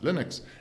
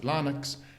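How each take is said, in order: First: The first syllable does not sound like Linus. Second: The first syllable sounds like Linus. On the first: This is how Americans say it. "Americans pronounce it Linux" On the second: This is how South Africans say it. "we pronounce it Linux like Linus"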